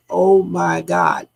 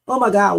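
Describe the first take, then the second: First: Slow, stretched OH MY GOD; drawn-out exclamation. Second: Said in the usual way. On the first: Retold or imitated. Recounting what was heard in the audio, drawn out. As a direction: draw out each word of the exclamation. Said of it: "the way they say". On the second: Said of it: "is not like".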